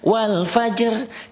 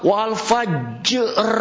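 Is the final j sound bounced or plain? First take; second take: plain; bounced. First: The final j is held without a bounce. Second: The final j is released with a bounce. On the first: The speaker calls it right. "Qalqalahnya jadi hilang" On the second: The speaker calls it wrong. "Dia baca qalqalah wal fajr salah"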